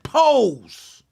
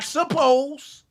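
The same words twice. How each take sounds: First: "pose" said very slowly, one drawn-out syllable with no "sup-" before it; corrected word. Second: "suppose" said as the mistaken word, with a full "sup-" opening and a slow pace; wrong word. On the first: Host insisting on the right word, slow and deliberate "pose". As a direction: drag out "pose" deliberately as the fix. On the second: Host corrects his own slip, saying "suppose" as the wrong take. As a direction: stretch out "suppose" plainly as the word he did not mean. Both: Shown as a demonstration. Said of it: "I said pose".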